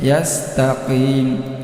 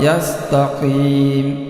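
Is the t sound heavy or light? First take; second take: light; heavy. First: The t sound is light and thin. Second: The t sound is heavy and thick. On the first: The speaker calls it right. "tetap ditipiskan" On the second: The speaker calls it wrong. "kalau tidak hati-hati bisa menjadi tebal"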